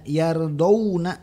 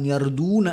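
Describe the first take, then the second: First: The d is followed by the diphthong 'aw'. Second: The d is followed by a long 'u' vowel. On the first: The speaker calls it right. "dibacanya itu dari do ke wawu mati" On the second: The speaker calls it wrong. "bukan yarduna"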